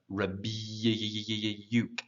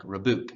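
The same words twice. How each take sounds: First: "rebuke" with a very long, held y, re-byyy-ook; exaggerated y-glide. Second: "rebuke" without the y, as re-book; wrong pronunciation. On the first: Teacher shows the hidden Y, exaggerated glide. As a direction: stretch the y inside "rebuke" very slowly. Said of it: "almost like a Y in there". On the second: Teacher shows learners what to avoid, mispronounced rebuke. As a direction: say "rebuke" with a plain oo, no glide. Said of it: "It's not book, like rebuke". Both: Shown as a demonstration.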